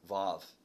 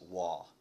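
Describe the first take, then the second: First: The word begins and ends with a v sound. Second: The word begins and ends with a w sound. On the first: "Depends on who you're talking to" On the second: "the way I always hear it in my head when I read it, is waw. Is that right? Waw, W-A-W?"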